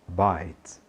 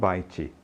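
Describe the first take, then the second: First: The word ends cleanly on the consonant. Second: An extra vowel is sounded after the final consonant. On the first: The speaker calls it right. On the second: The speaker calls it wrong.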